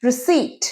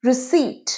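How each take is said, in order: The two takes are said the same way.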